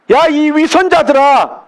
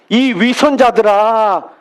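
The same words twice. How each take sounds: First: Jesus scolding the Pharisees, raised rebuke; rebuking call. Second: Said in the usual way. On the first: Retold or imitated. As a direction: call out 야 sharply, then scold the hypocrites. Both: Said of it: "그들을 향해 부르셨다는 거예요".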